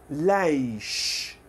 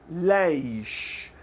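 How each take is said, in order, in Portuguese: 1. Tem uma vogal libanesa, terminando em som de sh. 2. Tem uma vogal libanesa, terminando em som de sh.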